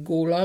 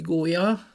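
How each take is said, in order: First: "góla" with l in place of j; western L sound. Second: "gólya" said gó-ja; y-glide for the ly in "gólya"; standard J sound. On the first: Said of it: "ha elmegyünk a Nyugat-Dunántúlra". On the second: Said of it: "köznyelvben azt mondjuk". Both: Shown as a demonstration.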